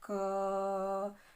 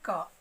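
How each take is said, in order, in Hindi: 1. यह ध्वनि खींचकर लंबी बोली जाती है। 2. यह ध्वनि छोटी और सामान्य तरीके से बोली जाती है।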